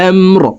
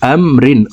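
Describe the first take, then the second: First: The word ends on a bare r consonant. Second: The word ends with a vowel and n.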